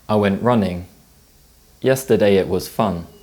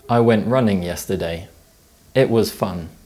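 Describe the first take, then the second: First: The pause falls after the word running. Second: The pause falls after the word yesterday. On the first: The fun happened yesterday. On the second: The running happened yesterday.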